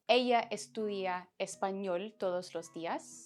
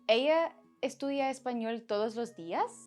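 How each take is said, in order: First: It has the intonation of a statement. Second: It has the intonation of a question. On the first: It states a fact. "make a statement" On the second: It asks a question. "ask a question"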